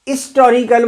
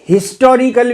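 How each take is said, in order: First: The word begins with a vowel, h silent. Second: The word begins with a pronounced h sound. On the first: This is the older way of saying it, taking 'an'. "हमारे समय में हिस्टोरिकल बोलते थे तो एन लगता था" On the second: This is how it is often said nowadays, taking 'a'. "हा भी आ सकता है"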